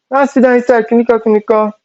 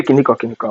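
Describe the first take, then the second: First: High-pitched mock telling-off; mom scolding. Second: Said in the usual way. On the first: Mom telling her daughter to sit down, high mock scolding. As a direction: imitate mom's scolding way up high. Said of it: "She was like". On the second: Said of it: "She didn't say".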